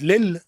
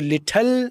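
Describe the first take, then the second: First: The t is removed entirely from the word. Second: The t is fully and clearly released. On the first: "टी को totally तौर पर निकाल ही दिया" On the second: "ये टी blast हो गई, ये ब्रिटिश साइड होगी"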